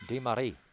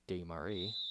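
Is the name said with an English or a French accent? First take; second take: French; English. First: The name is said with a French accent. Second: The name is said with a plain English accent.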